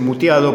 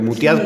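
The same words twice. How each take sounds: First: The word ends with a plain 'o' vowel. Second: The word ends with an awkward 'x' sound. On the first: This is the usual form of the word. "se dice muteado" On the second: The ending is made gender-inclusive. "le pusieron una X así... es difícil de pronunciar"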